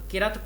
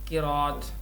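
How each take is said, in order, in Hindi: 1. इसे qi-rat बोला जाता है, कोई ग्लोटल ब्रेक नहीं। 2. इसे qi-ra-'at बोला जाता है, r के बाद एक स्वर के साथ। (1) "बाज़ किरत पढ़ते हैं ... गलत है" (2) "कौफ के नीचे ज़ेर, रा के ऊपर ज़बर, हमज़ा के ऊपर ज़बर और ता साकिन"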